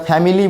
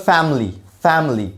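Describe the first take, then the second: First: ফ্যামিলি said in full as fa-mi-li with the middle i; the common three-syllable ফ্যামিলি; wrong family. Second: ফ্যামিলি clipped to fam-li, no middle i; correct family. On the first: Teacher shows students the wrong ফ্যামিলি, i sounded. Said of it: "উচ্চারণটা ফ্যামিলি না". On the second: Teacher shows students ফ্যামিলি without the middle i. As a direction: say ফ্যামিলি as two syllables, fam-ly. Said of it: "আইটা নাই এখানে". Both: Shown as a demonstration.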